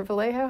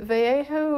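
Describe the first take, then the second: First: Vallejo as vuh-LAY-ho, with an L; anglicized pronunciation. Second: Vallejo as vay-AY-ho, no L sound; Spanish-style pronunciation. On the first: Host offering the other option, Vallejo said vuh-LAY-ho. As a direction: say Vallejo with a plain English L. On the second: Host checking a caller's town name, Vallejo said vay-AY-ho. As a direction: say Vallejo with a Y for the double L. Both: Shown as a demonstration. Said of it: "How do you pronounce that?".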